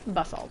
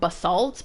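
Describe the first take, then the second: First: It is said the Australian/English way. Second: It is said the American way.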